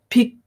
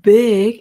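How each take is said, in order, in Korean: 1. b는 무성음이에요, p에 가까운 소리예요. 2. b는 유성음이에요, 성대가 떨려요. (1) "big이 아니라" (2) "big 이렇게 내야 된다는 거죠"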